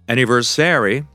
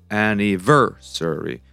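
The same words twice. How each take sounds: First: The stress is not on the third syllable. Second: The stress is on the third syllable. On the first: The speaker calls it wrong. "That's not correct" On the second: The speaker calls it right. "So the stress falls on the third syllable"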